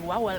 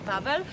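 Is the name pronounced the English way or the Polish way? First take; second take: English; Polish. First: The name is said with an English pronunciation. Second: The name is said with a Polish pronunciation. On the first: This is how visitors would say it. "You would say something like Wawel" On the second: This is how locals say it. "but we say Wawel"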